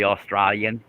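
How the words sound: It is said in an Australian accent. "would be Australian"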